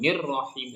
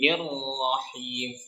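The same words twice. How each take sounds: First: The r sound is passed over quickly. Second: The doubled r sound is held and flows. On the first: The speaker calls it wrong. "jangan langsung" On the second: The speaker calls it right. "Disempurnakan dulu tasdidnya"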